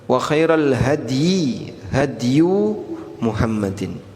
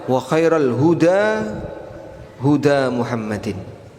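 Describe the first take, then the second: First: The key word is read as 'hady'. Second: The key word is read as 'huda'. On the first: "Ada dua cara baca" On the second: "Cara baca yang kedua"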